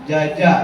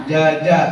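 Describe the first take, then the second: No difference in how they are said.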